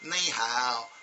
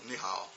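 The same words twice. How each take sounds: First: It is said the way Americans say it. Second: It is said low, the way Chinese say it.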